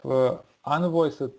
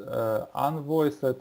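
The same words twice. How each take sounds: The two takes are said the same way.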